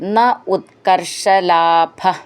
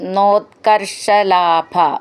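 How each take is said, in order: First: The words are said as separate words. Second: The words merge into one word.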